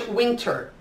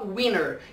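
First: It is said with a British accent. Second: It is said with an American accent.

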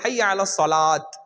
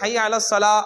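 First: The last word ends with a t sound. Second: The last word ends on a bare vowel. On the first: "அது தப்பு" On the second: "அப்படின்னு நிப்பாட்டிடுவாங்க"

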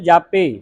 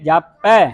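First: The word ends in a closed 'e' vowel. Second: The word ends in an open 'ai' vowel. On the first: The speaker calls it wrong. "ਆਪਾਂ ਕੀ ਪੜਦੇ ਜਾਪੇ, ਇੱਕ ਲਾਂ ਲਾਉਣੇ ਆ" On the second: The speaker calls it right. "ਦੋ ਦਲਾਵਾਂ ਉਚਾਰਨ ਕਰਨੀਆਂ"

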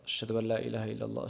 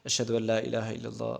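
Both takes have the same delivery.

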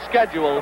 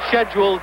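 First: It is said with an American pronunciation. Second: It is said with a British pronunciation. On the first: "Americans call it schedule" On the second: "that London pronunciation"

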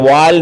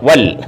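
First: The vowel is drawn out long. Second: The vowel is short and clipped. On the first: The speaker calls it wrong. "വാൽ എന്നല്ല, വാൽ എന്ന് പറയരുത്" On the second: The speaker calls it right.

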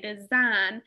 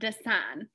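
First: The middle consonant is a buzzing Z sound. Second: The middle consonant is a hissing S sound. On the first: The speaker calls it right. "The S is actually making the Z or the Z sound. We say design" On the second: The speaker calls it wrong. "we don't actually say sign when we say design"

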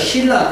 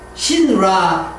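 First: It is said the way it naturally sounds. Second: It is said following each written letter. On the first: The word is romanized from its actual sound. "소리 나는 대로" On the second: The word is romanized from its spelling. "이렇게 표기를 해야 맞겠어요?"

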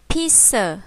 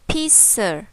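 Both takes have the same delivery.

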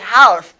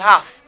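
First: The silent letter is clearly pronounced. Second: The silent letter is left unpronounced. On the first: The speaker calls it wrong. "I don't say half" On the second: The speaker calls it right. "This letter is not pronounced. I say half"

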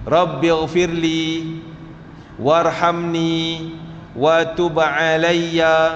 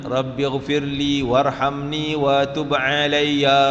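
First: The phrase is recited slowly and carefully. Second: The phrase is recited quickly and briskly. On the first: "pelan-pelan sikit" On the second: "kalau lajunya"

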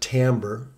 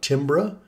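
First: It is said differently from how it's spelled. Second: It is said the way the spelling suggests. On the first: The speaker calls it right. "but we pronounce it timbre" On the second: The speaker calls it wrong. "It looks like timbre on the spelling"

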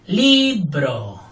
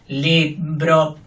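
First: The stress is on the first syllable. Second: Both syllables are equal, robotic and flat. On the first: "Fuerte la primera"

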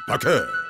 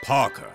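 First: It is said in a Japanese accent. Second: It is said in an English accent.

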